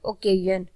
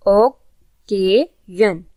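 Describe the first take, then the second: First: Said in the usual way. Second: occasion very slowly in three separate syllables; teacher counting out the syllables of occasion. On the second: Shown as a demonstration. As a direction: break occasion into three parts with clear pauses. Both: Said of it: "ये three syllable word है".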